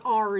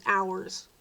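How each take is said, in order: First: "our" said short like "are"; clipped our. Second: "ours" as two beats, ow-erz; ours said right. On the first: Imitating South Jersey locals, short "our". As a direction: clip "our" to one flat syllable "ar". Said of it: "'cause it's not". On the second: Correcting the South Jersey way, careful "ours". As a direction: say "ours" like "hours" without the h. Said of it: "it's not". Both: Shown as a demonstration.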